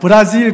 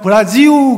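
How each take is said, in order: First: The word ends with a clear L sound. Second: The word ends with a vowel U sound. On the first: This is how people from other countries say it. The speaker calls it wrong. "딴 나라 사람들이 이야기하는 거고요" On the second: This is how Brazilians themselves say it. The speaker calls it right. "브라질 발음으로는 브라지우가 맞습니다"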